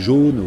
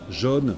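First: It is said with a Parisian accent. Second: It is said with the speaker's regional accent. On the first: "À Paris, on dit jaune" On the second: "moi je dis rose, jaune"

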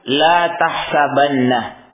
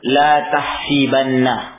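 First: The vowel after the h is an a sound. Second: The vowel after the h is an i sound. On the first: This is not the form that was spoken. "beliau tidak mengatakan la tahsabanna ... bukan dengan fathah" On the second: This is the form that was actually spoken. "tapi beliau mengatakan la tahsibanna ... di kasrah"

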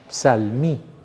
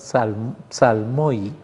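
First: The ending is read as a single 'ee' sound. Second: The ending is read as the diphthong 'oy'. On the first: "puede leerse como una i" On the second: "así como nosotros lo leemos"

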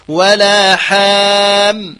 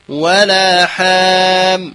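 No difference in how they are said.

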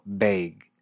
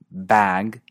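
First: It is said in a Canadian accent. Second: It is said in a standard American accent.

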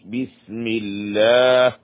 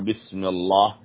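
First: The L in Allah is thin and light. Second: The L in Allah is heavy and full. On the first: The speaker calls it right. "لفظ الجلالة مرققة" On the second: The speaker calls it wrong. "لا هذا خطأ"

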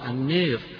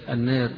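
First: The long vowel is strongly fronted toward 'ee'. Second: The long vowel is slightly fronted toward 'e'. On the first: "قرأها البعض بالإمالة" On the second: "بالتقليل فيها"

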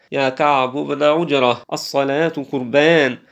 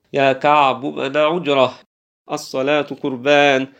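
No difference in how they are said.

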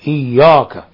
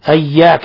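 First: The y sound is made heavy and emphatic. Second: The vowel is tilted toward an e sound. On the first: "ربما يفخمون الياء" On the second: "قد يميلونها"

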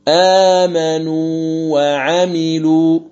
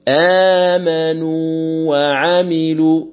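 The two takes are said the same way.

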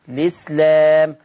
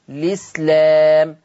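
First: The word begins directly with an L sound. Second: The same.

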